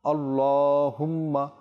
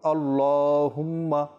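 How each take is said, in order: No difference in how they are said.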